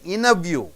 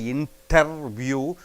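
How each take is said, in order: First: The T after N is dropped entirely. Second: The T after N is clearly pronounced. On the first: The speaker calls it right. "you say interview" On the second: The speaker calls it wrong. "You don't say interview"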